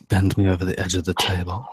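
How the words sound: It is read in a close, sultry voice.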